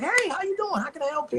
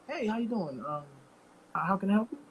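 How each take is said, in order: First: The greeting sounds warm and welcoming. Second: The greeting sounds wary and suspicious.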